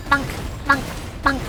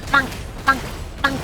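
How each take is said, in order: Both takes have the same delivery.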